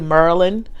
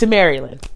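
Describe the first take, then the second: First: It is said in a local Baltimore accent. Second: It is said in a general American accent.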